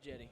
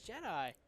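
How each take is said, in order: First: The name ends with an 'ee' sound. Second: The name ends with an 'eye' sound. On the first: The speaker calls it wrong. "they said it wrong. They said Jetty" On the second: The speaker calls it right. "It's Jedi"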